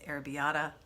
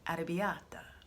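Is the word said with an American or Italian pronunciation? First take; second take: American; Italian. First: It is said with an American pronunciation. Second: It is said with an Italian pronunciation. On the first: The speaker calls it wrong. "I tend to say arrabbiata" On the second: The speaker calls it right. "here it's pronounced correctly"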